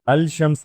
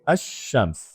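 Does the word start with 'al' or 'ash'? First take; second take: al; ash. First: The l sound is pronounced before shams. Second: The l is dropped and the sh is doubled. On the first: The speaker calls it wrong. "अल शम्स नहीं" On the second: The speaker calls it right. "यहाँ मैंने लाम नहीं बोला, शीन को दो दफा बोला जा रहा है"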